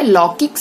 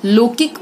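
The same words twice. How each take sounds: First: Said in the usual way. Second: लौकिक said as "lokik"; wrong vowel. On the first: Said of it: "सही है". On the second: Shown as a demonstration. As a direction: close the first vowel of लौकिक to "o". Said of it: "गलत है".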